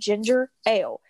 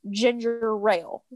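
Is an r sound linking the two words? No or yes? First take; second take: no; yes. First: The two words are separated with no r sound. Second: An r sound links the two words together. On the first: "you enunciated between the ginger and the ale" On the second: "In my house, it's ginger rail"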